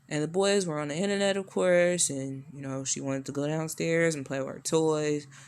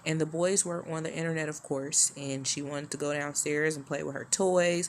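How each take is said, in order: First: It imitates Donald's rambling way of speaking. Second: It is read plainly in the speaker's own voice.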